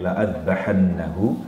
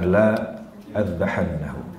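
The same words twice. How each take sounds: First: The first vowel is held short. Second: The first vowel is drawn out long. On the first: I will surely slaughter him. The speaker calls it right. "dibaca uh, pendek" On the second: I will not slaughter him. The speaker calls it wrong.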